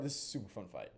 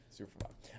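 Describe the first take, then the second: First: Said in the usual way. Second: Whisper. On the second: Acted. Repeats line, then whispers it.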